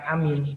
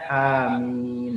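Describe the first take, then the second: First: One vowel is clipped short. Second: Both vowels are drawn out long. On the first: Believing or trusting. The speaker calls it wrong. "Jangan amin. Kalau amin saja percaya" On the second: May God grant the prayer. The speaker calls it right. "Dua-duanya panjang"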